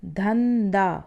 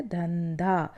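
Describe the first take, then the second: First: धंधा slowly with an aspirated dh; wrong form. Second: धंधा with a plain d; correct form. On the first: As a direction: drag out धंधा with a breathy dh. (धंधा धीरे, गलत उच्चारण) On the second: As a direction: say धंधा with no breath on the d. (धंधा सही उच्चारण) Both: Shown as a demonstration. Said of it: "जबकि शुद्ध शब्द क्या होता है".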